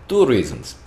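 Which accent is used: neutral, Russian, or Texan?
Russian. It is said in a put-on Russian accent. "it was Russian"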